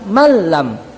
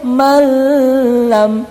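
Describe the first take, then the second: First: It goes straight into the l, no hum. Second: A nasal hum is held before the l. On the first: The speaker calls it right. "tapi langsung malam" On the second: The speaker calls it wrong. "nggak boleh malam"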